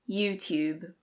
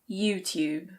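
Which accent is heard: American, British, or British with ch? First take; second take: British; British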